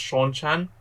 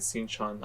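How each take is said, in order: First: The first syllable sounds like 'shawn'. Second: The first syllable sounds like 'sin'. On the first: The speaker calls it right. "Apparently, it's pronounced Sean-chan" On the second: The speaker calls it wrong. "cringed every time I said Sin-chan"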